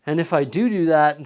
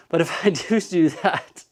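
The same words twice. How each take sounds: First: Said in the usual way. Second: Laughing. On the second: Real, not acted. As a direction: repeat do do while laughing. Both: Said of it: "I said do do".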